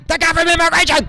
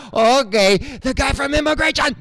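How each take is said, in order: First: High, louder alarmed repeat; mock alarmed staff. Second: High, mock alarmed staff whispering; lightly voiced staff, spooked. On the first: Staff warning coworkers, higher and louder. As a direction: warn the others, pitched up and loud. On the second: Staff spotting the comedian, mock alarm. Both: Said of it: "And they're like".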